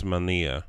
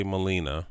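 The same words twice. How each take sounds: First: "Melnia" as mel-NEE-uh; corrected pronunciation. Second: "Molina" as muh-LEE-nuh; common mispronunciation. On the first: Correcting how people say the street, "Melnia" as mel-NEE-uh. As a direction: say "Melnia" with the n before a stressed EE. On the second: Showing how people say the street, "Molina" as muh-LEE-nuh. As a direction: say "Molina" with n after the stressed LEE. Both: Shown as a demonstration. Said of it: "people say Molina".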